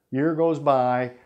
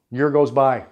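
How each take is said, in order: First: Drawn out slowly, letting the year pass; slow, weighty. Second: Said in the usual way. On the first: A narrator's reading. Narrator stressing the long hard year, slow and heavy. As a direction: stretch each word to show time dragging. Repeated narration line, slowed.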